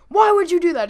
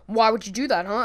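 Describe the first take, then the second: First: High, loud confrontation; imitated angry yell. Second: Lightly voiced tough-guy challenge; a hint of a tough guy confronting someone; imitated tough guy. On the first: Homeowner confronts Glenn over the dunk, imitated angry yell. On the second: Short fat guy confronts Glenn, mild imitated tough guy. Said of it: "looking at him like a tough guy".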